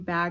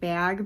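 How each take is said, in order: First: The word is said in a usual accent. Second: The word is said in a Canadian-style accent. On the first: "I've been saying bag" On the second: "like bag because I watch a lot of Canadian YouTubers"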